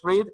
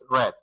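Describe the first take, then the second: First: It has a long ee vowel. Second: It has a short e vowel. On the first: It is the present tense. "En presente es read" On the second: It is the past tense. "en pasado es red, como el color rojo"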